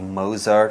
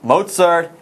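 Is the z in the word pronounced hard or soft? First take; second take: soft; hard. First: The z is pronounced as a soft z sound. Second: The z is pronounced as a hard ts sound. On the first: The speaker calls it wrong. "pronounce that Z softly" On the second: The speaker calls it right. "Don't make that mistake"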